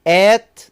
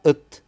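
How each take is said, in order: First: The vowel is full and clear. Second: The vowel is reduced to a schwa.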